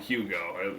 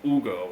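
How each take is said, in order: First: The name is said with an English pronunciation. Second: The name is said with a Spanish pronunciation. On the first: The speaker calls it wrong. "I would call him Hugo. Not pronounced like that" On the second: The speaker calls it right. "He's Spanish. It's Hugo or something"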